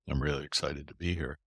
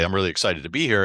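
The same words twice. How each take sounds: First: It is said flatly with low energy. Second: It is said loudly with high energy.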